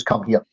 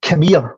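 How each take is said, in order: First: Said in the usual way. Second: "Come here" run together as "kum-eer"; Scottish "come here". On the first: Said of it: "which is". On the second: Retold or imitated. Husband calling his wife, "Come here" slurred into one Scots word. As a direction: squash "Come here" into one quick Scots call, raised in pitch. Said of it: "in Scottish".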